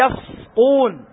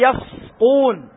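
First: The s sound is made heavy and emphatic. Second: The s sound is made heavy and emphatic.

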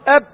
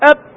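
First: The final b is held closed with no release. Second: The final b is released with a voiced burst. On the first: "لا نفس ولا صوت" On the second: "في صوت في نفس"

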